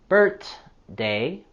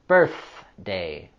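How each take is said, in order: First: The th sound is not voiceless. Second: The th sound is voiceless. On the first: The speaker calls it wrong. "careful not to say birthday" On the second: The speaker calls it right. "but rather birthday"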